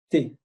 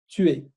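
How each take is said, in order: First: It is one contracted syllable. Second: It is two separate syllables.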